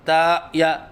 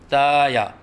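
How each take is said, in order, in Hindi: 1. पहला स्वर गले की रुकावट से कटा है। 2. पहला स्वर खुला, साफ़ और स्थिर है। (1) "न हम हमज़ा के साथ कहते हैं" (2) "बिल्कुल आहिस्ता बोले"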